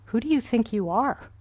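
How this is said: It is said in a harsh, contemptuous tone.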